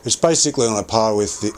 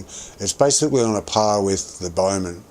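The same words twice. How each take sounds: First: Yelling. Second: Said in the usual way. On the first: Real, not acted. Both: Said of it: "sorry, I'm yelling".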